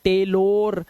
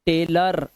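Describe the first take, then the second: First: "टेलोर" with a long "-lor" ending; wrong O sound. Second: Said in the usual way. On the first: Shown as a demonstration. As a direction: stretch the O at the end of "टेलोर". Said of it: "ओ की आवाज नहीं है". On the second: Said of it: "अर की आवाज आई देखो".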